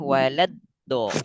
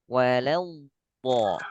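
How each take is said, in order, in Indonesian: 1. Konsonan itu dipotong pendek dan terdengar tipis. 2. Konsonan itu ditahan panjang, tebal, dan mengalir. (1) "Kalau yang bawah, singkat dan tipis" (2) "Kalau yang atas, walau bo"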